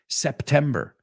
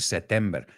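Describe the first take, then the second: First: The word is said with a clear P sound. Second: The word is said without a P sound. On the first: The speaker calls it right. "He puesto la P" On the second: The speaker calls it wrong. "muchos dicen September"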